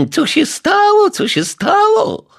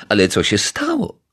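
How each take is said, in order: First: High, loud mocking echo of "co się stało"; snapping mockery. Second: Said in the usual way. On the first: A narrator's reading. Neighbour mocks the detective's question, shrill snapping echo. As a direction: throw "co się stało" back at him with scorn. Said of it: "fuknęła pani Majewska". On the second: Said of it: "zapytał detektyw Pozytywka".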